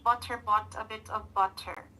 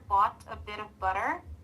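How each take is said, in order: First: Each t is a crisp, fully released t sound. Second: Each t between vowels is a quick flap. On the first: The speaker calls it wrong. "if I will not apply a flat T, it will sound like this" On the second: The speaker calls it right. "if you apply flat T, it will sound like this"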